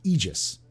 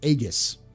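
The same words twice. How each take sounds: First: The first vowel is an E sound. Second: The first vowel is an A sound. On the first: This follows the German or English reading. "take the A E and make it an E sound" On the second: This follows the Latin reading. "when you have an A E, it usually is an A sound"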